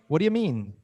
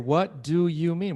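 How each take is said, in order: First: The words are reduced and run together. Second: Each word is said fully and separately. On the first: The speaker calls it right. "how would a native say it? ... either what do you or what do ya?" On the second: The speaker calls it wrong. "Wouldn't say"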